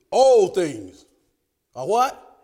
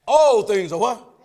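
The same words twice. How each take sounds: First: Questioning call to the room; call to congregation. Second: Slower, insistent call for an answer; demanding repeat call. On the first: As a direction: ask it out to the pews. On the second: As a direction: draw the answer out of them. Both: Shown as a demonstration. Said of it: "I didn't hear that".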